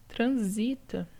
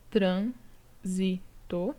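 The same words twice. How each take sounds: First: "Transita" said slowly, stress on the TA; teacher contrasting "Transita" as tran-SI-ta-style penult stress; stress on penultimate syllable. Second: "transito" slowed right down, syllable by syllable, TRAN stressed; teacher spelling out "transito" as TRAN-si-to; stress on first syllable. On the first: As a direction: draw out "Transita" and hit its middle syllable TA. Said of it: "já muda a sílaba tônica". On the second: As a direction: stretch out "transito" and lean on TRAN. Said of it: "a tônica aqui marcada pelo acento". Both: Shown as a demonstration.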